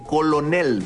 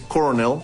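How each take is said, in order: First: The middle consonant is an L sound. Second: The middle consonant is an R sound. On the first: "Se escribe con L" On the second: "que se pronuncia con R"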